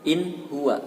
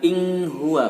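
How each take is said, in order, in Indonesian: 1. Bunyi n yang jelas diucapkan sebelum huwa. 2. Bunyi ng diucapkan sebelum huwa. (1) "dibaca izhar atau jelas" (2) "bukan ing huwa"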